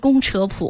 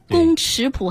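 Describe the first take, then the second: First: The middle syllable is pronounced chě. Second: The middle syllable is pronounced chǐ. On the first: The speaker calls it right. "是宫扯谱，大家记住啊。三声扯" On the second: The speaker calls it wrong. "说宫尺谱这就露怯了啊"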